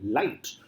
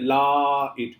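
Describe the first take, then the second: First: The word flows as one smooth syllable. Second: The word is broken into two separate vowel parts. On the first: The speaker calls it right. "in the flow, light" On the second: The speaker calls it wrong. "It's not like la it. I mean, it's not like that"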